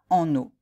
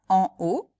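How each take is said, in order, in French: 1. Un son « n » relie les deux mots. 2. Les deux mots sont prononcés séparément, sans liaison en « n ». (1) "et non pas en haut? ... c'est la liaison entre en et haut" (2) "est-ce que vous dites bien en haut"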